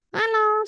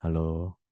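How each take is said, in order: First: Much higher and louder, squeaky hello; thin high-pitched greeting; tinny thin voice. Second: Much lower, heavy bass hello; sultry low-pitched greeting; deep sexy voice. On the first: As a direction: chirp it up high like a cheap recording. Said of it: "suaranya kayak gitu". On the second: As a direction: drop the voice way down and make it sultry. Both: Shown as a demonstration.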